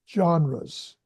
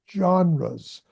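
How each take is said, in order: No difference in how they are said.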